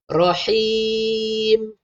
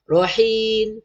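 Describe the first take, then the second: First: "Rahim" held long, lips closing on m; correct ending. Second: "Rahim" ending wrongly on n, as "rahin"; swapped ending. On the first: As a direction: stretch "Rahim", finish on m. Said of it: "Sebab dia mati dengan mim". (baca "Rahim", tutup mulut pada mim) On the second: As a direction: let "Rahim" end open-lipped on n. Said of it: "Jangan tertukar pula". (baca "Rahim" salah, bunyi nun di hujung) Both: Shown as a demonstration.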